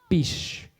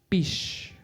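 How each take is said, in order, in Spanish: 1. La palabra termina en sonido sh. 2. La palabra termina en sonido sh.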